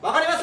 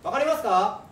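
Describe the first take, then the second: First: It is said in a strong, loud voice. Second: It is said in a medium-loud voice.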